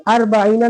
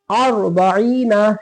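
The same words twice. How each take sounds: First: अर्बईना with a light, everyday r; wrong thin ra. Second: अर्बईना slow, with a thick r after "a"; correct heavy ra. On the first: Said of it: "अर्बईना नहीं पढ़ेंगे". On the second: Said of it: "तब मोटा पढ़ेंगे". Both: Shown as a demonstration.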